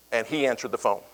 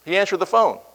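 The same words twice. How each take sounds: First: Said in the usual way. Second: Lightly imitating Muhammad Ali, higher; a faint mock of the champ's phone voice; hint of Ali. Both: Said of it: "You know that voice".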